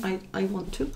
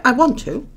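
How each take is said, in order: First: I, I want to, said softly under the breath; soft repeat. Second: Want to, said up and louder as a choice; stress on want. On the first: Repeating to herself that she wants to, quietly. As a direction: murmur it again to herself. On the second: Insisting to viewers that she wants to do readings, stressing want. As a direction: hit want, not have. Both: Real, not acted. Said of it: "I don't have to".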